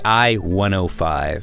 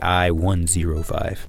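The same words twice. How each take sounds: First: The zero is said as oh. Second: The zero is said as zero. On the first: The speaker calls it right. "if you want to sound more, you know, native, say I-105" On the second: The speaker calls it wrong. "Don't say I-105"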